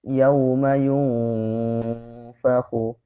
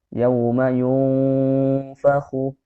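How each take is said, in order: No difference in how they are said.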